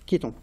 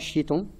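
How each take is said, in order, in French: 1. Le mot commence par un son k. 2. Le mot commence par un son sh. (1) "le C H, on le prononcera que" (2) "on ne dit pas chiton"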